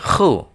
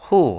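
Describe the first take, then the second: First: The syllable starts with a raspy throat kh. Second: The syllable starts with a plain breathy h. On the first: The speaker calls it right. "tapi khu" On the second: The speaker calls it wrong. "bukan hu ya"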